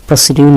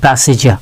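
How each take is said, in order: First: প্রসিডিউর with a D sound, "pro-si-diur"; mispronounced প্রসিডিউর. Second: প্রসিজার with a J sound, "pro-si-jar"; correct pronunciation. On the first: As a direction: say প্রসিডিউর with a hard D, as the rejected form. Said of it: "এটা প্রসিডিউর না". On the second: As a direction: say প্রসিজার with J in place of D. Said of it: "এটা প্রসিজার". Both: Shown as a demonstration.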